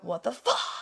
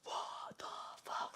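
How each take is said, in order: First: The scream hits hard on the last word. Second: The scream sounds soft, without a strong hit. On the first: The speaker calls it right. "there's like the impact and it hits on the word fuck" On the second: The speaker calls it wrong. "I feel like you don't want to go, ... it doesn't sound as hard as it could"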